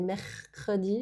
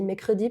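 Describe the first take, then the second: First: The R after the first vowel is pronounced. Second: The R after the first vowel is dropped. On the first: The speaker calls it right. "ça se dit mercredi" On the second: The speaker calls it wrong. "si on le dit mal"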